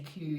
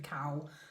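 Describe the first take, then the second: First: The vowel is a long oo sound. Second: The vowel is an ow sound. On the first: "the Scottish accent. They say Q" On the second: "instead of cow"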